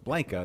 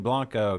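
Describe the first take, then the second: First: The name has a local English-style pronunciation. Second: The name has a careful Spanish-style pronunciation. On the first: This is how the locals say it. The speaker calls it right. "That's how they say it there" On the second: This is the proper original pronunciation. The speaker calls it wrong. "he's all proper with his pronunciations"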